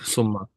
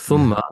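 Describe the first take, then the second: First: The word begins with an 's' sound. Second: The word begins with a 'th' sound. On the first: The speaker calls it wrong. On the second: The speaker calls it right.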